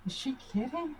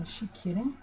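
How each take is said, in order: First: Higher, softer disbelief; a light stunned aside; incredulous. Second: Said in the usual way. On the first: Retold or imitated. Mother replaying her disbelief at daughter, higher and softer. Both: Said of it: "this is what I was thinking".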